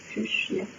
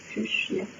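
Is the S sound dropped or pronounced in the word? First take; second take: dropped; dropped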